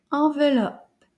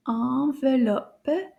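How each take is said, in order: First: "Enveloppe" joined up, at a brisker teaching pace; a bit faster. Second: "Enveloppe" stretched out slowly, each syllable held; slow take. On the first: Teacher speeding the word up for class, a bit faster. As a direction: say "Enveloppe" in one smooth go, less stretched. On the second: Teacher saying the word together with class, slow and stretched. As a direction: say "Enveloppe" slowly so all can join. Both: Shown as a demonstration. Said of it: "Now a little bit faster".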